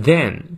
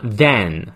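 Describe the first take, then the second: First: Then with a short "eh"; small-mouth vowel. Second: Then widened into "than"; too-wide vowel. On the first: Teacher modelling then for students, narrow "eh" vowel. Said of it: "它是小a，所以嘴型不要太大". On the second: Teacher showing the mistake, then opened up into "than". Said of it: "嘴型太大的话变成了then". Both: Shown as a demonstration.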